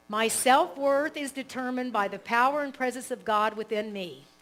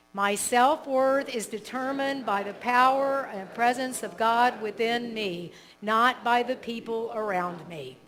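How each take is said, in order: First: Affirmation read. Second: Repeated affirmation. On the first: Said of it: "So I'll say it". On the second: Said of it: "then you can repeat it together". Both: Shown as a demonstration.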